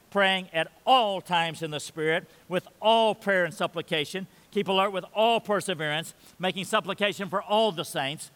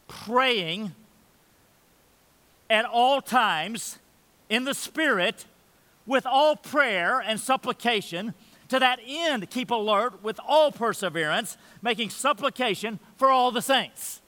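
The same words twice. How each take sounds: First: Each "all" marked in an even rereading; rereading, stress on all. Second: Slow, raised reading with each "all" leaned on hard; emphatic scripture reading. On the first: Preacher points out the four "all"s, plain rereading. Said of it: "with the emphatic term all four times". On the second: Preacher reads Paul's call to prayer, emphatic. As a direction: read Paul's words so every "all" rings out. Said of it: "Now, that's emphatic language". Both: Shown as a demonstration.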